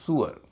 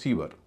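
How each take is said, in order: First: The word begins with a 'soo' sound. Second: The word begins with a 'see' sound. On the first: The speaker calls it right. "इसका उच्चारण है सुअर" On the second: The speaker calls it wrong. "हम लोग इसे कहते हैं सीवर"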